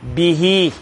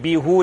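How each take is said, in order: First: The word ends with an 'ee' vowel. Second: The word ends with an 'oo' vowel. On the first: The speaker calls it right. "he's getting a kasra" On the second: The speaker calls it wrong. "you won't read be who. Doesn't sound nice to read"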